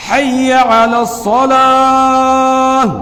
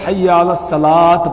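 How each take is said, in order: First: Slow call to prayer, الصلاۃ drawn out without a final t; correct adhan pronunciation. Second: الصلاۃ spoken as "salaat" with a hard t ending; mispronounced final t. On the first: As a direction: chant حی علی الصلاۃ with a clear ayn in علی. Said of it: "اس کا بھی صحیح تلفظ یہ ہے". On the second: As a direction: say حی علی الصلاۃ unchanted, sounding the t in الصلاۃ. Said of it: "تو بہت سارے ... پڑھ دیتے ہیں". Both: Shown as a demonstration.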